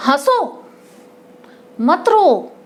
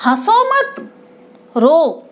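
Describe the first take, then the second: First: "हंसो", a long break, then "मत रो"; "हंसो" set apart as its own command; pause after हंसो. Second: "रो" set apart as its own command; pause after मत. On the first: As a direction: put the comma after "हंसो", keeping "मत रो" together. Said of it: "ऐसे ही इसने दूसरी बात कही". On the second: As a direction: put the comma after "मत", leaving "रो" alone. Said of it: "ऐसे ही". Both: Shown as a demonstration.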